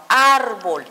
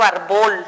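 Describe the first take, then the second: First: Árbol as AAR-bol, first vowel held; árbol with long opening syllable, short bol; correct first-syllable stress. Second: Árbol mis-stressed as ar-BOL; árbol said wrongly, punching the last syllable; wrong final stress. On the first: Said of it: "sino árbol". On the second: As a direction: push the weight onto the BOL of árbol. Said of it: "no digo árbol". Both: Shown as a demonstration.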